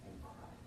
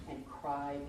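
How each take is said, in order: First: A soft, voiceless whisper of "and cried". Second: Quiet. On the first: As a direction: breathe it out as a whisper. Final repeat dies to a whisper. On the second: Repeats "cried", fading each time. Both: Acted.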